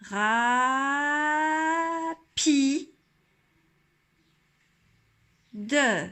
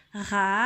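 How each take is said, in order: First: Ra, pi, de said apart, each one stretched; teacher sounding out each syllable. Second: Rapide said as one quick word; a bit faster. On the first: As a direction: sound out Ra, pi, de slowly. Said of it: "je vais aller vers la syllabe d'après". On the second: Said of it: "le redire un petit peu plus vite". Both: Shown as a demonstration.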